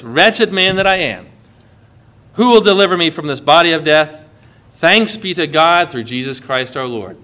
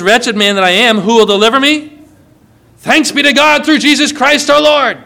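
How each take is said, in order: First: Soft, sinking read of Paul's lament; quiet lament. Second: Louder, rising to a high triumphant thanks; joyful proclamation. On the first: Pastor reading Paul's cry of wretchedness, subdued and low. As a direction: let it fall low and heavy, hint of grief. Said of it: "ends this whole talk like this". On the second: Pastor proclaiming Paul's rescue to the congregation, exultant. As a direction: swell up with rejoicing on the thanks. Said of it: "Paul says". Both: Retold or imitated.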